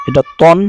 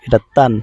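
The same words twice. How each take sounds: First: তন said with a full, rounded heavy ত and a dark o; heavy tanween on ta. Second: তান said with a thin ত and an open a; light tanween on ta. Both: Shown as a demonstration. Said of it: "একটু লক্ষ্য করি উচ্চারণটা".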